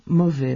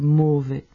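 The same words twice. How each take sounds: First: The first vowel is a very open O. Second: The first vowel is a very closed O. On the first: "En francés se pronuncia con una O muy abierta" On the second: "con una O muy cerrada"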